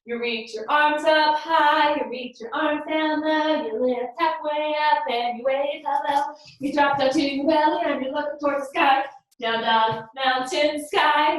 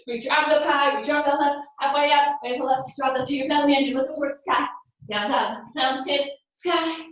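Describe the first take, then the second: First: Sung, steady sing-song pace; sung chant. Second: Sung, quick, rushed sing-song; sung, race through the song; fast sung chant. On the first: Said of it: "do that a little faster". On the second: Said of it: "Let's go a little faster". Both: Shown as a demonstration.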